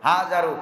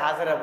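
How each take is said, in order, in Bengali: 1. নামটি 'u' স্বরধ্বনি দিয়ে শেষ হয়। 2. নামটি 'a' স্বরধ্বনি দিয়ে শেষ হয়। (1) "নাম কি হাজারু" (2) "এটাকে আমরা গ্রামের গঞ্জের ভাষায় হাজারা বলি"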